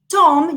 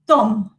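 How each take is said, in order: First: The t is made behind the upper teeth. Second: The t is made against the teeth. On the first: The speaker calls it right. "which is alveolar" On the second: The speaker calls it wrong. "you have the tendency to say Tom, Tom, and it sounds completely different"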